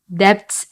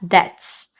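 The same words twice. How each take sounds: First: A b sound is pronounced before the t. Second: No b sound is pronounced before the t. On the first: The speaker calls it wrong. "debts 아니고" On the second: The speaker calls it right. "b를 발음하지 않으세요. 그러니까 debts"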